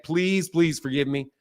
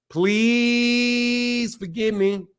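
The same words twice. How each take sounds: First: Soft, slow plea; gentle, unhurried apology; pleading. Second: PLEASE held very long; hammed-up drawn-out plea on PLEASE; mock begging. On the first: Pretend. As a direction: beg softly and slowly, lower. Repeated playful apology to the viewer. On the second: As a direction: stretch PLEASE out in one long, level note. Exaggerated begging after missing a message.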